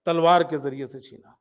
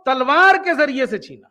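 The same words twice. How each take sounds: First: Softer, lower echo of the phrase; quiet repeat. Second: Firm, stressed تلوار, normal level; emphatic statement. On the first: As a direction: let تلوار کے ذریعے سے چھینا sink in quietly. (دھیمی آواز میں دہرانا) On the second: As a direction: state تلوار کے ذریعے سے چھینا firmly. Repeating Hasan Basri's claim. (تلوار پر زور دے کر واضح بیان) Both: Retold or imitated.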